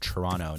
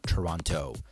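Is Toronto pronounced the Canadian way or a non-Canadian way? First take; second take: Canadian; non-Canadian. First: Toronto is said with a Canadian pronunciation. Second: Toronto is said with a non-Canadian pronunciation. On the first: The speaker calls it right. "it's Toronto ... That's how the Canadians say it" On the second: The speaker calls it wrong. "not Toronto"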